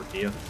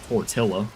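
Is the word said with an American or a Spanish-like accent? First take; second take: Spanish-like; American. First: It is said with a Spanish-like accent. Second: It is said with an exaggerated American accent.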